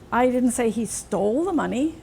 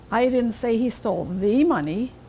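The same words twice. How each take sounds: First: The word 'stole' carries the main stress. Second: The word 'the' carries the main stress. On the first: He may have only borrowed it. "Maybe he just borrowed it" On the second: He took different money. "Maybe some other money he stole. Not that one"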